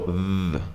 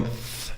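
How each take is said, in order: First: Long buzzing "th" as in those; voiced TH. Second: "th" as in think, air only; voiceless TH. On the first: Teacher contrasting the two sounds, voiced TH. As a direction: add voice to "th" and hold it. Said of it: "You just add your voice". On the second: Teacher contrasting the two sounds, voiceless TH. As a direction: blow "th" with no voice. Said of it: "So instead of going th". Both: Shown as a demonstration.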